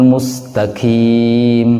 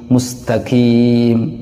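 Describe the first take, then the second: Both takes have the same delivery.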